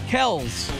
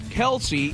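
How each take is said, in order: First: The name is said with one syllable. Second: The name is said with two syllables. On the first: The speaker calls it right. "it's supposed to be, or is, Kells" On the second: The speaker calls it wrong. "it's not Kelsey"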